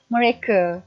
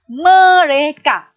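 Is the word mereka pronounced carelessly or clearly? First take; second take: carelessly; clearly. First: The word is pronounced in a careless, slipped way. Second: The word is pronounced clearly and carefully. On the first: The speaker calls it wrong. "sering kita terlepas pandang ataupun terhilaf lidah kita ni ialah mereka" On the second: The speaker calls it right. "Sepatutnya mereka. Itu yang sebetulnya"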